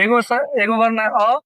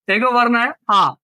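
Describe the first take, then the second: First: अ clipped short, the quick short vowel; short vowel demo. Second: आ held long and open; long vowel demo. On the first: Teacher contrasting short अ with long आ for students. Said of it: "अ जल्दी बोला जाता है". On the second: Teacher contrasting long आ with short अ for students. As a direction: stretch the आ out. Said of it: "थोड़ा सा समय लग रहा है". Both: Shown as a demonstration.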